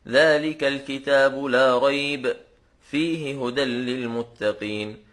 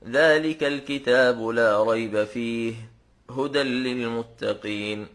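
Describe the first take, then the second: First: There is a pause after 'la rayb'. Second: There is a pause after 'fih'.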